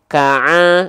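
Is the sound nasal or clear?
nasal. The sound goes through the nose. The speaker calls it wrong. "jangan sampai masuk ke hidung"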